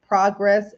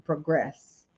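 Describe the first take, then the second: First: "progress" as PRAH-gress, open first vowel; noun pronunciation. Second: "progress" as pruh-GRESS, weight on second syllable; verb pronunciation. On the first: Coach contrasting two same-spelt words, "progress" said PRAH-gress. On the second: Coach contrasting two same-spelt words, "progress" said pruh-GRESS. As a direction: reduce the first vowel of "progress": pruh-GRESS. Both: Shown as a demonstration. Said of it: "but sounds differently".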